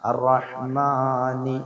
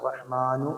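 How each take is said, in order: First: The word ends with an 'ni' sound. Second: The word ends with an 'nu' sound. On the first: The speaker calls it right. "അർറഹ്മാനി നീ എന്നാണ്" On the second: The speaker calls it wrong. "ചില ആൾക്കാർ അർറഹ്മാനു എന്നോതുന്ന ആൾക്കാരുണ്ട്"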